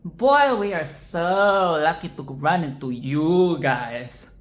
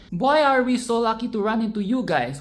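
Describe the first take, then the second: First: Put-on slow drawn-out sarcasm with a loud "Boy"; mock delight dripping with sarcasm; sarcastic. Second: Higher, louder, genuinely glad; mean every word of it; earnest happy greeting; sincere enthusiasm. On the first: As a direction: say it so nobody believes you. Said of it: "will come off as". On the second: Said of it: "your message comes across as sarcastic". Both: Shown as a demonstration.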